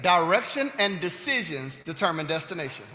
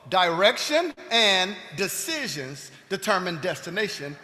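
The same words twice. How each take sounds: First: It is spoken at a normal pace. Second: It is spoken slowly and deliberately.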